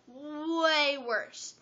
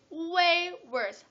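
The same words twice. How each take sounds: First: "way" stretched very long, high; heavy stress on "way". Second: "way" drawn out high and loud; stress on "way". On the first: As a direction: drag out "way" for emphasis. Repeats it for stronger emphasis. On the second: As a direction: lean hard on "way". Stressing how bad the crowd got. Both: Real, not acted.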